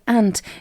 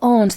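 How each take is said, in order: First: It is said in the American way. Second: It is said in a non-American way. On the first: The speaker calls it wrong. "Some people in the U S A ... they call it ant" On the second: The speaker calls it right. "Instead of aunt"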